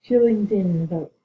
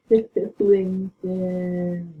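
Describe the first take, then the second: First: Slow, raised call of a name; a slow, mournful call for a teammate. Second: Very slow, stretched name; long drawn-out call. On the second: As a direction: draw the name out like a lament. Calling teammate's name again. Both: Real, not acted.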